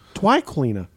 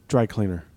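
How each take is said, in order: First: The r in dry sounds like a w. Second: The r in dry is said clearly.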